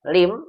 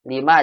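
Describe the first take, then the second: First: The word ends abruptly on the m sound. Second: The word ends with a vowel after the m. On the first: The speaker calls it wrong. "nanti jadi lim gitu" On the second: The speaker calls it right. "Lima aja"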